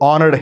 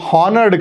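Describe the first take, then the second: First: The word begins directly with a vowel sound. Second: The word begins with an audible H sound. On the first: The speaker calls it right. "హెచ్ silent అనమాట" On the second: The speaker calls it wrong. "అది హానర్డ్ కాదు"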